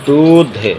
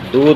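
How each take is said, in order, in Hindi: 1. अंतिम व्यंजन महाप्राण बोला जाता है। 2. अंतिम व्यंजन अल्पप्राण बोला जाता है। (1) "धा निकाल कर पढ़ें" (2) "दूध नहीं"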